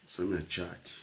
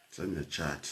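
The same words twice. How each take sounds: The two takes are said the same way.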